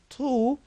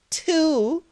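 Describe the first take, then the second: First: The t is heavy, with a full mouth. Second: The t is light, without a full mouth. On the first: The speaker calls it right. "which should be tu" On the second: The speaker calls it wrong. "the trap that many English speakers do"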